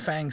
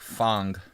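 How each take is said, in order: First: The name is pronounced the English way. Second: The name is pronounced the Chinese way. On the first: "I'm calling it Fang because Fang sounds cooler" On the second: "in Chinese it's like Fang"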